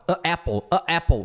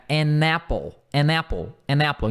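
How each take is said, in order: First: "a apple" with a clumsy break before apple; awkward a apple. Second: "An apple" as "anapple", n joined; linked an apple. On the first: Teacher showing students the odd form. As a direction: make "a apple" sound strange. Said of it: "fica estranho". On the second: Teacher drilling students, n linked. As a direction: glide the n straight into apple. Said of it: "Quase que o N junta". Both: Shown as a demonstration.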